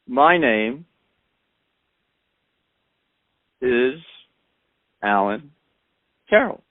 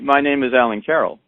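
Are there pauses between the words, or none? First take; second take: pauses; none. First: The words are separated by short pauses. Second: The words run together without pauses. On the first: "all I did was pause between the sounds that I was speaking" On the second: "I didn't say"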